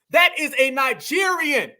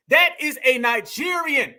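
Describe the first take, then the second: No difference in how they are said.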